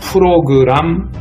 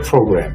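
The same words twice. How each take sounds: First: It is pronounced the North Korean way. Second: It is pronounced the South Korean way. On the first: "이북 사람들은 프로그램 프로그램 그러니까" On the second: "우리 대한민국에서는 프로그램이라고 발음을 하죠"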